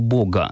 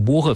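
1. Г — твёрдый взрывной звук, как g. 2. Г — мягкий фрикативный звук, как h. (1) "если мы говорим «много», то надо произносить слово «Бога»" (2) "как она должна была бы звучать"

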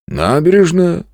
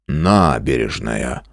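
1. Слово звучит сомнительно и скептически. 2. Слово звучит убеждённо и с принятием. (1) "с явным скепсисом произнес Зверев" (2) "уже совсем другим тоном повторил"

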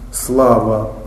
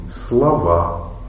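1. Ударение на первом слоге. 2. Ударение на втором слоге. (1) "Мы говорим, слава" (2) "И тут же ударение заменяйте, и будет слова"

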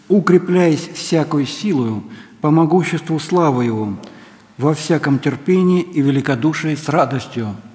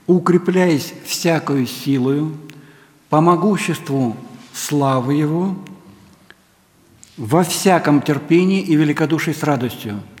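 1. Стих читается в быстром темпе. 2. Стих читается в медленном темпе. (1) "я произнес быстро" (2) "но теперь медленно"

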